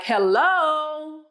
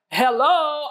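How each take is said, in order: First: High, drawn-out "hello"; sharp-sounding hello. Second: Higher "hello", shorter and lighter; replayed phone hello. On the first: Retold or imitated. Wife answering the babysitter's call on her watch, sharp drawn-out hello. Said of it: "I wouldn't dare say anything like that". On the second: Wife explaining her phone greeting to husband, raised replayed hello. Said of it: "ever talk to you like that".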